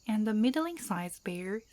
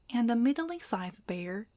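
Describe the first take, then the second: Both takes have the same delivery.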